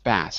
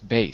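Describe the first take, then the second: First: The vowel is a short 'a' sound. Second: The vowel is a long 'ay' sound. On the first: The speaker calls it wrong. "it isn't pronounced bass" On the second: The speaker calls it right. "it's bass"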